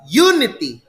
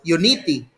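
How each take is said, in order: First: The stress is on the first syllable. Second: The stress is on the second syllable. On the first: The speaker calls it right. "So the stress is on the first syllable" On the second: The speaker calls it wrong. "If you want the stress to be in the second syllable"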